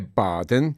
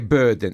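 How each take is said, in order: First: The word is said with Italian-style pronunciation. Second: The word is said with English pronunciation. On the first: The speaker calls it wrong. "e non è burden" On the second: The speaker calls it right. "scusa se lo pronuncio correttamente, perché burden"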